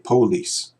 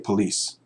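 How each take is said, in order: First: The first vowel is a full, stressed vowel. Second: The first vowel is a weak uh sound. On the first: Only certain regions say it this way. "some of these unstressed vowels get stressed in certain parts of the country" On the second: Most parts of the country say it this way. "I say police"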